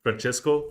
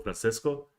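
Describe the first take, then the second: First: "Francesco" said with a CH sound in the middle. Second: "Francesco" said with an S sound, no CH. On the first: Host trying out the concept artist's name, ch pronunciation. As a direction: try "Francesco" as fran-CHESS-ko, tentatively rising. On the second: Host testing the other reading of artist's name, s pronunciation. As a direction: try "Francesco" softened to fran-SIS-ko, tentatively rising. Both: Shown as a demonstration. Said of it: "Is, is it Francisco or Francisco?".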